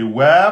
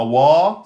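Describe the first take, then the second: First: "wa" said light and unemphatic, loud and slow; thin wa. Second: "wa" said heavy and emphatic, as the wrong version. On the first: Teacher showing students the correct thin wa. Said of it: "c'est aminci". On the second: Teacher showing students the wrong heavy wa. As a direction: give the mistaken, thick "wa". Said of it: "donc c'est wa, pas wa". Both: Shown as a demonstration.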